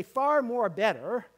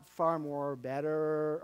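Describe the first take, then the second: First: "far more better" loud and slow, FAR rising; emphatic phrase. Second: Said in the usual way. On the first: Shown as a demonstration. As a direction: punch "far" and draw out the phrase. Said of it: "but we can say". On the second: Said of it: "but not".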